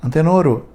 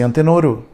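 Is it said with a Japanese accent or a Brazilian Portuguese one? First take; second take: Japanese; Japanese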